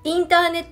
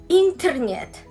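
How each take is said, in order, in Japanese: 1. 巻き舌のRは使いません。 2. 強く巻き舌のRを使います。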